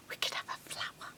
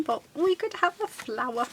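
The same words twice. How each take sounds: First: Quick, hushed whisper with a gasp of an idea. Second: Said in the usual way. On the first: Real, not acted. Crafter struck by a flower idea, whispering. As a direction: whisper it like a sudden secret. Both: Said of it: "I don't know why I'm whispering".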